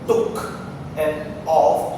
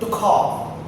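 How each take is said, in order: First: The two words are said separately. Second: The two words are linked together. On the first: The speaker calls it wrong. "not took and off" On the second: The speaker calls it right. "but took off"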